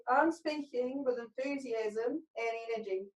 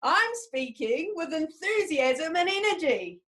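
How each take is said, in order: First: Curled up, chin down. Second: Slow, proud declaration, arms wide; slow enthusiastic shout, higher and stretched; shout it to the world. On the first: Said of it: "curl up into a little ball". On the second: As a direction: belt it out to the world with energy. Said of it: "shout it to the world". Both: Shown as a demonstration.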